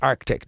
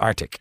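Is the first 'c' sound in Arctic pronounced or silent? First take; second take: pronounced; silent. First: The first c sound is clearly pronounced. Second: The first c sound is left out. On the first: The speaker calls it right. "It's Arctic" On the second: The speaker calls it wrong. "not Arctic. ... It's a silent sea"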